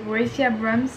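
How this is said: The name is said with an English accent. "j'ai essayé de prononcer à l'anglaise"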